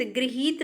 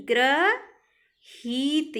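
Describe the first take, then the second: First: गृहीत as "griheet", with "gri"; wrong pronunciation. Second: ग्रहीत very slowly as "gra ... heet"; correct pronunciation. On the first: Teacher showing students the error, गृहीत as "griheet". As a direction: begin गृहीत with an i sound, "gri". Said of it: "गृहीत नहीं". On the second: Teacher correcting students, ग्रहीत split and drawn out. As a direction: stretch "gra", pause, then "heet" for ग्रहीत. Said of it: "ये शुद्ध है". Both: Shown as a demonstration.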